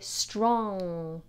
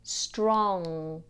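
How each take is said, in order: The two takes are said the same way.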